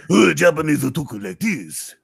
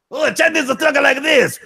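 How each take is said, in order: First: Only slightly raised put-on voice; second take, kept near the normal register; mildly raised caricature. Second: Much higher, squeaky put-on voice; first of two contrasting takes, pitched way up; high squeaky caricature. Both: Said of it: "your difference between the Japanese and Chinese impression".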